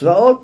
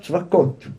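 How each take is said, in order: First: The middle of the word has no k sound. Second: The middle of the word has a k sound. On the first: This is the actual divine name. "אבל צבאות" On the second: This form avoids uttering the divine name. "אומר צבקות"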